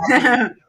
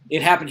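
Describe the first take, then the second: First: Loud, high insistence; protesting he's not making it up; insistent. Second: Said in the usual way. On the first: Real, not acted. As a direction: insist it really happened, emphatically. Insisting the story is true.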